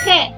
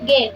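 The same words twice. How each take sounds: First: The G is a rasping sound in the throat. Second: The G is a hard stop, like Indonesian g. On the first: The speaker calls it right. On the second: The speaker calls it wrong. "dibacanya bukan huruf G"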